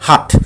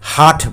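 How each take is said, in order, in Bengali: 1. স্বরধ্বনিটি হ্রস্ব। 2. স্বরধ্বনিটি দীর্ঘ। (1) "এটা একটা শর্ট সাউন্ড" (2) "হাট বলিনি"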